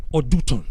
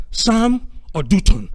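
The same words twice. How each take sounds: First: Said in the usual way. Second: "Sam or Dutton" said slowly, each word set apart; slow dictation. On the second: Shown as a demonstration. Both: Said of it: "write this down".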